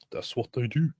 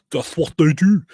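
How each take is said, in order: First: Said in the usual way. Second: Higher, louder put-on voice for the catchphrase; a silly put-on voice repeating it for laughs; mock put-on voice.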